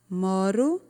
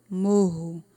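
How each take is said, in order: First: "Moro" with a tongue-tap R, ending on a rise; single tapped R. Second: "morro" with an H-like R, MO-ho; double guttural R. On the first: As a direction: flick the tongue once on the R of "Moro". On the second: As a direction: keep the tongue down on the RR of "morro". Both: Shown as a demonstration. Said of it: "Como fica diferente".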